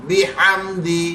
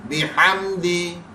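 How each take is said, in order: The two takes are said the same way.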